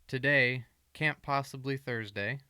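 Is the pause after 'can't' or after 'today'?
after today. There is a pause right after 'today'.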